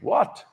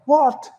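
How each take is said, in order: First: The word is said at normal volume. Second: The word is yelled loudly.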